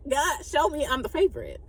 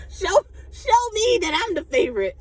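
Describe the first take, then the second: First: Said in the usual way. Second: Playful plea. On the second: Pretend.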